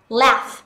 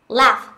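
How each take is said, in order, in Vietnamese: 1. Nguyên âm là âm 'a' ngắn, bẹt. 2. Nguyên âm là âm 'a' ngắn, bẹt.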